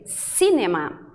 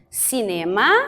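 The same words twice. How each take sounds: First: The stress is on the first syllable. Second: The stress is not on the first syllable. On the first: This is how the British say it. "colocam a sílaba mais forte, a primeira. Então, a gente lê cinema" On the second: This is how Brazilians say it. "Nós dizemos cinema"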